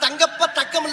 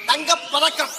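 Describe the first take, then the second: First: The break falls after 'thangappa', before 'thakkam'. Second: The break falls after 'thanga', before 'pathakkam'. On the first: The speaker calls it wrong. "அப்ப அந்த படத்துக்கு பேர் தங்கப்ப தக்கம் இல்ல" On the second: The speaker calls it right.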